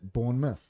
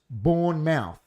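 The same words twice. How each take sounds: First: It is said in the shortened local way. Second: Every letter is sounded out as written. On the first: The speaker calls it right. "they pronounce it Bournemouth" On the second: The speaker calls it wrong. "it spells Bournemouth"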